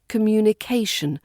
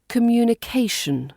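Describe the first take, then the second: First: The stress falls on the syllable before the ending. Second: The same.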